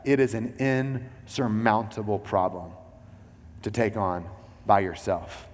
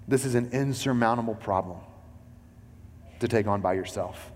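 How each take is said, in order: First: "insurmountable" drawn out slowly, each word weighed; slow, weighty restatement. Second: Said in the usual way. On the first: Shown as a demonstration. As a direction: lean into every word so it sinks in. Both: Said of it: "I want you to hear both sides of that".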